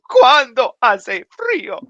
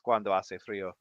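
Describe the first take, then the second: First: It is said dramatically, like a telenovela. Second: It is said plainly, without drama.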